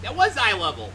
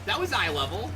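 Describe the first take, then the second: First: Louder, higher amazement; excited exclaim. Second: Said in the usual way. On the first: Real, not acted. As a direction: shout it out amazed.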